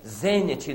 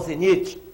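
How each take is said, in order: First: The stress is on the third-to-last syllable. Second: The stress is on the second-to-last syllable. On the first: The speaker calls it right. "palavras proparoxítonas" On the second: The speaker calls it wrong. "não zenite"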